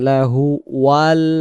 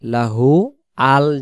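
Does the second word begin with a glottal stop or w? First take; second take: w; glottal stop. First: The second word starts with a w sound. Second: The second word starts with a glottal stop. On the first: The speaker calls it right. "ওয়াল বলবো আমরা" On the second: The speaker calls it wrong. "লাহু আল যেন না আসে"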